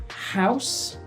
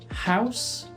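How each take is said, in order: The two takes are said the same way.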